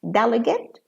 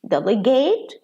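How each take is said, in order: First: The stress falls before the final syllable. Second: The stress falls on the final syllable. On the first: It is used as a noun. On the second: It is used as a verb.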